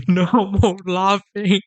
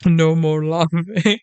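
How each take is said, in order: First: Breaks into a laugh mid-line. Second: Said in the usual way. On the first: Real, not acted. Scolding himself to stop, laughing through it. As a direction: tries to stop, laughs anyway.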